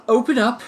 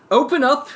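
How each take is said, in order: First: Shouting. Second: Second Open up! shouted higher and louder. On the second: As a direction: Open up! hammered harder the second time. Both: Acted. Agent pounding on door.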